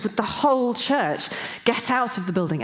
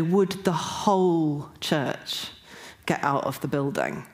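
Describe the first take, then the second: First: Higher-pitched, pressing command; urgent authoritative. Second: "whole" drawn out long, then dropping away; slow down and lean on "whole"; stress on WHOLE. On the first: Retold or imitated. Woken by this voice in the dream, urgent and authoritative. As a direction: retell it as an urgent order. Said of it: "it was really urgent". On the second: Shown as a demonstration. Explaining what stuck out from the dream, stress on "whole". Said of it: "was the word whole".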